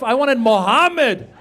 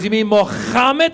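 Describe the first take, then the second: First: Said in the usual way. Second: "Mohammed" with a harsh throaty kh for the h; throaty kha. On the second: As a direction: scrape the h in "Mohammed" into a long guttural kha. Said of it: "you start going".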